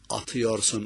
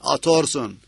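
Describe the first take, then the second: First: The word is said in full, four syllables. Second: The word is clipped to three syllables. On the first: It is the standard form. "anlamına" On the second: It reflects a regional dialect. "Lehçesi öyleymiş hocanın"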